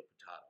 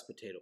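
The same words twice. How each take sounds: First: "potato" with an open ah, softly; low, quiet "potato" with ah in the middle; joke potato. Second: "potato" with a long ay; "potato" with ay in the middle; usual potato. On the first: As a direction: say "potato" as po-TAH-to. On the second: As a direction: say "potato" as po-TAY-to. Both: Shown as a demonstration. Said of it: "So I screwed that up".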